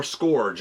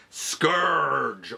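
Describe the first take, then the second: First: Scourge said with an "or" vowel; alternative pronunciation. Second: Scourge said to rhyme with "urge"; first pronunciation variant. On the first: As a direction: say Scourge as "skorj", like "gorge". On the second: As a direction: say Scourge with an "ur" vowel, as "skurj". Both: Shown as a demonstration. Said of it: "if you prefer that pronunciation".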